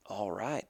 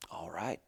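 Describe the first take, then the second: First: Said in the usual way. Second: Breathy hushed all right; whispered agreement. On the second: Retold or imitated. Charlie quietly accepts Mike's offer to rope together, whispered. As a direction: give in under your breath.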